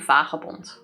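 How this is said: The word is said with a Dutch pronunciation. "Fully Dutch would be vagabond"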